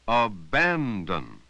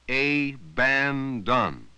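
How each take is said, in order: First: Only the middle vowel is full, others are uh. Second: Every vowel is said fully and equally. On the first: The speaker calls it right. "we only stress the middle vowel" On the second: The speaker calls it wrong. "If you pronounced each vowel sound"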